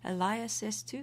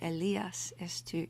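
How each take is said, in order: First: It is pronounced in a non-Italian style. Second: It is pronounced in an Italian style.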